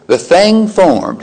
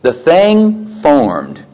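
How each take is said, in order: First: "The thing formed" again, higher, "thing" stressed and rolled; rising emphasis. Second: "The thing formed" said very slowly, stressing "thing"; slow emphasis. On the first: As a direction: lift "thing" higher the second time. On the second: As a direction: let "thing" hang, slow and weighty. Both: Shown as a demonstration. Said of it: "repeated for emphasis".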